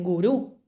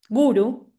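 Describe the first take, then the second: First: The stress is on the last syllable. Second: The stress is on the first syllable. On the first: The speaker calls it wrong. "que muchos dicen gurú, no, no es gurú" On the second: The speaker calls it right. "la famosa palabra guru"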